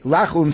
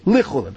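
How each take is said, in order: First: The first vowel is a full open a. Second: The first vowel is a short reduced e. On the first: The speaker calls it wrong. "don't say lachulin" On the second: The speaker calls it right. "say lichulin"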